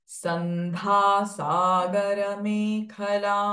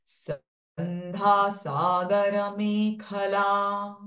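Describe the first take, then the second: No difference in how they are said.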